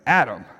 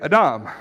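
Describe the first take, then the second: First: The name is said with an English pronunciation. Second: The name is said with a Hebrew pronunciation. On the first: "That's how we pronounce it in East Texas English" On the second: "In Hebrew, you'd say Adam"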